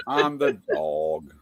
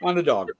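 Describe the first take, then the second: First: On the dog dragged out very slow and low; slow, drawn-out repeat. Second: Said in the usual way. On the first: Retold or imitated. Host mulling over the dog excuse, drawn out slowly. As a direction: stretch On the dog out slowly, amused.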